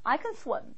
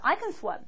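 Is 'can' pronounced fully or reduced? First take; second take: reduced; reduced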